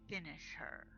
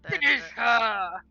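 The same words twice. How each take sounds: First: It is said flat, without any emotion. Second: It is said in a loud, dramatic way.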